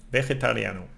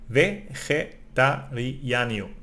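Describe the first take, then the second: First: Said in the usual way. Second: Vegetariano drawn out syllable by syllable, slowly; slow demo. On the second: Shown as a demonstration. Teacher sounding out vegetariano slowly for learners. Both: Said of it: "The first time I also did a little bit wrong".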